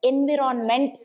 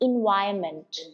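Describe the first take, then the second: First: The second syllable has a short 'i' sound. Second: The second syllable has a long 'eye' sound. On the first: The speaker calls it wrong. "అందరు ఎన్విరాన్మెంట్ అని అంటున్నారు మనం as teachers మనమే తప్పు చెప్తున్నాం" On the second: The speaker calls it right. "In I sound"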